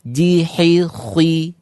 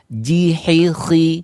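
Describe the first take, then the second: First: An extra w glide comes before the last vowel. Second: No w glide comes before the last vowel. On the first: The speaker calls it wrong. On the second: The speaker calls it right.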